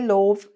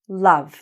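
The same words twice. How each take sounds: First: The vowel sounds like the letter O. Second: The vowel is a short 'uh' sound. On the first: The speaker calls it wrong. "Don't get confused by the O. Don't say love" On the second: The speaker calls it right. "No. Love. So it sounds like this"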